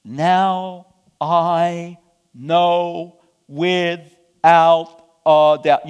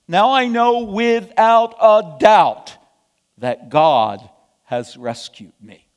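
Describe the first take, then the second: First: Very slow, "Now... I... know... without... a doubt"; drawn-out declaration with long held words; exclaimed, word by word. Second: Slow, forceful declaration of certainty; emphatic exclamation. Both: Acted. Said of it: "Peter exclaimed".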